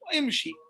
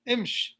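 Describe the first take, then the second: First: The word ends with a short i vowel. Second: The word ends on the consonant sh.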